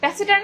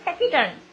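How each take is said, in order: First: The second consonant is an s sound. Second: The second consonant is a k sound. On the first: "ট্যাসিটার্ন না বলে" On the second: "এটাকে বলে ট্যাকিটার্ন"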